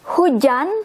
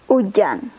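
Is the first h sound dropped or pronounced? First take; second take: pronounced; dropped. First: The word starts with an h sound. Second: The word starts with a vowel, no h.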